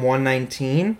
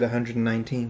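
First: The number is read the American way. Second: The number is read the British way.

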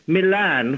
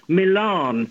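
First: The second syllable has a short, flat A. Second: The second syllable has a broad 'ah' sound. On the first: This is the British pronunciation. "I always said, growing up in England" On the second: This is the American pronunciation. "the A sound is pronounced not A, but R"

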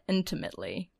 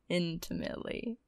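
First: The word is said plainly, without extra emphasis. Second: The word is said with heavy, drawn-out emphasis.

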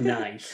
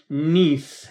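First: The word is pronounced the English way. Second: The word is pronounced the French way. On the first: It is read as the English adjective. The speaker calls it wrong. "not nice. I read that in English" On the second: It names the French city. The speaker calls it right. "So I should have said Nice"

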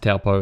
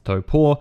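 First: The name is said with an anglicized pronunciation. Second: The name is said with Māori pronunciation. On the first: The speaker calls it wrong. "which is not actually pronounced Taupō" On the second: The speaker calls it right. "it's pronounced Taupō"

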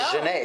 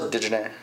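First: The name starts without any D sound. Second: The name starts with a D sound. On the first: The speaker calls it right. "You don't pronounce the D at all. You don't. So it's" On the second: The speaker calls it wrong. "What if it was"

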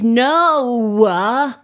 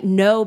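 First: The vowel is stretched out long. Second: The word is said short and plain.

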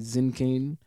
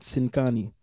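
First: It is said with a German accent. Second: It is said with a Sudanese accent. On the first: This is how people in Germany say it.

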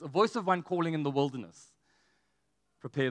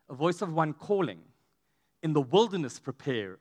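First: The pause comes after 'in the wilderness'. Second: The pause comes before 'in the wilderness'. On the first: The one calling is in the wilderness. "I think we've always read it like this" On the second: The way is to be prepared in the wilderness. "can you see how it's written?"

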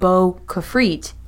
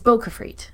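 First: The name is split with a break. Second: The name runs together without a break. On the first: It sounds like two separate words. The speaker calls it wrong. "It's not" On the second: It is one single word. The speaker calls it right. "There's no spaces. It's just Bo-Kafrit"

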